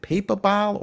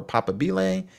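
First: "papabile" said as PAY-puh-bal, English style; anglicized guess. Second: "papabile" said as PAH-puh-BEE-lay; Italian-style pronunciation. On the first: Narrator checking which pronunciation is right, anglicized "papabile". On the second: Narrator offering the other option, Italian-style "papabile". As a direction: give "papabile" four syllables, ending in BEE-lay. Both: Shown as a demonstration. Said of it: "Maybe I'm saying it right".

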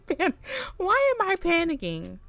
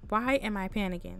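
First: Higher, louder panicked question; flustered rising panic. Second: Said in the usual way. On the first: Real, not acted. Panicking player.

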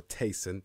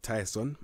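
First: Tyson said as TAY-son; Tyson said another way. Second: Tyson said as TIE-son; Tyson said one way. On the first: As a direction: Tyson with an "ay" vowel, TAY-son, a bit slower. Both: Shown as a demonstration. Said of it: "or Tyson".

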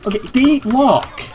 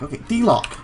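First: D-LOCK dragged out slow, loud and high; exasperated emphasis. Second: Said in the usual way. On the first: Real, not acted. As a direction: hit D-lock hard and stretch it in frustration. Repeats command when it fails.

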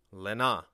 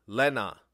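First: Lena with the second syllable NA stressed, nasal e; Lena meaning these. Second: Lena with the first syllable LE stressed, loud; Lena meaning right here. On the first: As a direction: lean on NA in Lena. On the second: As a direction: punch LE in Lena, let na fall. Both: Shown as a demonstration. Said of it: "pronounced different and carry different meanings".

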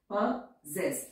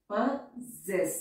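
First: Said in the usual way. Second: possess drawn out very slowly, both syllables stretched; slow dictation. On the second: Shown as a demonstration. Teacher dictating possess very slowly to her students. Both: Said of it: "लेकिन word है possess".

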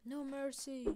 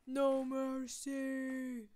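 First: Slightly raised war call; mild mock-heroic order; restrained battle call. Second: Loud shout, very slow and stretched; mock-epic war cry, dragged out; drawn-out battle cry. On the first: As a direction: call it out firmly, holding back the shout. First battle call in game. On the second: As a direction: bellow it with long held vowels.

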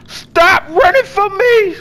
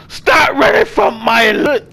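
First: High, slow fake crying plea; hammed-up teary whine, higher; mock whine. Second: Hammed-up crying shout; mock sob-yell. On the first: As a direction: whine like a hurt sibling. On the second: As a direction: wail after him in mock grief. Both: Begging a fleeing character.

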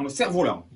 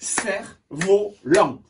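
First: Said in the usual way. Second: Slow "Cerf-volant" in three spaced beats; syllable by syllable. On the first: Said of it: "Trois syllabes". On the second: Shown as a demonstration. Teacher counting syllables for pupils, syllable by syllable. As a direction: break "Cerf-volant" into Cerf, vo, lant. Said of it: "Un, deux".

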